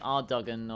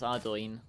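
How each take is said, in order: First: The name ends with a 'gan' sound. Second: The name ends with an 'oin' sound. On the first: The speaker calls it wrong. "you'd think it'd be Ardogan" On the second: The speaker calls it right. "but no, it's Ardoin"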